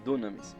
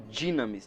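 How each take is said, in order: First: The first vowel sounds like 'oo'. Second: The first vowel sounds like 'ee'. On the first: The speaker calls it wrong. "Só que na verdade não é" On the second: The speaker calls it right. "ela tem o som de I"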